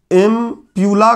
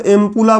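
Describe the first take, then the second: First: एम्प्यूला with a y glide, em-pyoo-la; ampyula pronunciation. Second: एम्पुला with no y glide, em-pu-la; ampula pronunciation. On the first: Teacher showing students one way to say it, em-pyoo-la. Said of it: "एम्प्यूला कुछ लोग बोलते हैं". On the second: Teacher showing students the other way to say it, em-pu-la. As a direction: say एम्पुला plainly as em-pu-la with a short u. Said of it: "कुछ लोग केवल एम्पुला बोलते हैं". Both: Shown as a demonstration.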